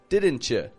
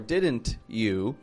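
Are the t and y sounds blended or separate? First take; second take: blended; separate. First: The t and y blend into ch. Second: The t and y sounds stay separate. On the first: The speaker calls it right. "but didn't you? ... mush it together to sound like a chew" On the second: The speaker calls it wrong. "or didn't you"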